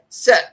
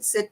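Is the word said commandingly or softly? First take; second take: commandingly; softly. First: It is said firmly, as a sharp command. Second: It is said softly, as a polite request. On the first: It demands obedience. The speaker calls it right. "You say, sit. That tone sets a vibration out" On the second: It asks politely. The speaker calls it wrong. "you don't say"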